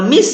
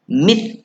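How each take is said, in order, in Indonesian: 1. Konsonan akhir itu bunyi s yang mendesis. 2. Konsonan akhir itu bunyi th yang lembut. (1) "kalau miss, lidahnya kat dalam" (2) "Sa keluarkan lidah bunyi mis"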